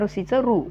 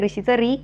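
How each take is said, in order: First: The r is followed by an 'oo' vowel. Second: The r is followed by an 'ee' vowel. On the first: "री किंवा रू दोन्ही दोन्ही उच्चारांची मान्यता आहे" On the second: "री किंवा रू दोन्ही दोन्ही उच्चारांची मान्यता आहे"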